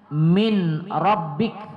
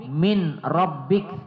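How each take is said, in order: No difference in how they are said.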